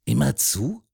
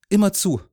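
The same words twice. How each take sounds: First: "Immer zu" as a rising question; curious lift on "zu". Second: "Immer zu" high at the start, then falling; louder, high "Immer", dropping "zu"; confirming. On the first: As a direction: ask "Immer zu" with the tune lifting at the end. Man asks, boy confirms. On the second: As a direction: state "Immer zu" with a closing drop. Boy confirms the man's question. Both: A narrator's reading.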